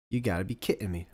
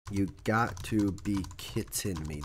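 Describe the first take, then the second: First: Said in the usual way. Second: Recalled catchphrase. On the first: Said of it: "That is from something". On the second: Shown as a demonstration. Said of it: "Where is that from".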